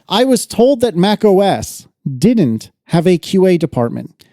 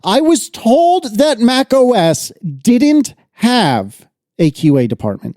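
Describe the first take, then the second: First: It is read in a plain, flat way. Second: It is read with strong, dramatic feeling.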